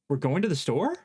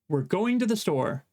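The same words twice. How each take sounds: First: The voice rises at the end. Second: The voice falls at the end.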